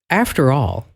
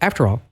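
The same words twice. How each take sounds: First: It is said with engaged, meaningful expression. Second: It is said flatly, without expression. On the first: The speaker means what they say. The speaker calls it right. "talk like you mean it" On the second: The speaker is just reading the words. The speaker calls it wrong. "instead of"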